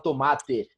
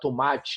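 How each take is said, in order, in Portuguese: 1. Não é dita com sotaque carioca. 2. É dita com sotaque carioca. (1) "o carioca não fala tomate" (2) "o carioca fala ... tomate, esse chiado nosso"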